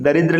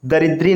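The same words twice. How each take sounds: First: दरिद्र ending in short "dra"; correct ending. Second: दरिद्री ending in long "ee"; wrong ending. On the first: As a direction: say दरिद्र as "daridra". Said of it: "लिखा जाएगा". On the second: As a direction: say दरिद्री as "daridree". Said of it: "नहीं". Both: Shown as a demonstration.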